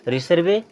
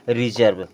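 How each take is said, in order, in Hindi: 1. इसमें 's' की ध्वनि है और यह स्वर पर खत्म होता है। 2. इसमें 'z' की ध्वनि है और यह 'v' पर खत्म होता है। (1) "रिसर्वे नहीं" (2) "इसे पढ़ते हैं रिजर्व"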